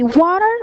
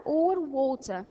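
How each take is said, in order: First: Loud American "water" with a sounded final r; emphatic American-accented "water". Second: British "water" with a crisp t and no final r; British-accented "water" as the alternative. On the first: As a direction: punch out "water" the American way, r on the end. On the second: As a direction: say the second "water" the British way, dropping the r. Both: Shown as a demonstration. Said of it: "specific accent. I can say water or water".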